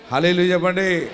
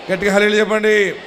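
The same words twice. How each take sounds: First: Said in the usual way. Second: Fast, louder call for hallelujah; preacher asks the congregation for a loud hallelujah. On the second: Real, not acted. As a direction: push the crowd to answer loud.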